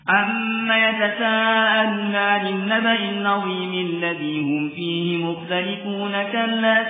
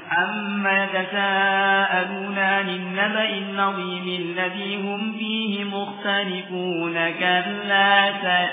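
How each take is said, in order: First: It keeps one steady, medium pace throughout. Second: It starts fast and then slows down. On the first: The speaker calls it right. "Ini tadwir tengah-tengah, ya, antara uh, al-hadar dan tartil" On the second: The speaker calls it wrong. "Ini enggak seperti ini, enggak benar"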